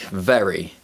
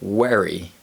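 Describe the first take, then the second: First: The word begins with a V sound. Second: The word begins with a W sound. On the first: The speaker calls it right. "This sound is usually represented by the letter V in words like very" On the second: The speaker calls it wrong. "some students pronounce this word very. And this is incorrect because the letter V never produces the W sound"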